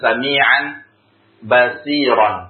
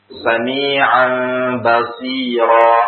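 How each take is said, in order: First: The last word ends with an n sound. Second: The last word ends with a long a vowel.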